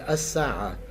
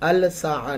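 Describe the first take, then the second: First: The L merges into a doubled s sound. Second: The L is clearly pronounced before s. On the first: The speaker calls it right. "बल्कि अस्साआ" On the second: The speaker calls it wrong. "अल साआ नहीं"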